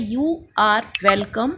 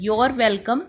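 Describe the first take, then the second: First: "You are welcome" said slowly with "are" as a clear separate word; correct phrase. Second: "Your welcome" with "are" run together into "Your"; the mistaken "Your welcome", joined into one syllable; wrong version "Your welcome", "you are" squashed to "your"; wrong phrase. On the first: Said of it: "ध्यान देने वाली चीज़ है कि ये है". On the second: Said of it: "नहीं है". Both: Shown as a demonstration.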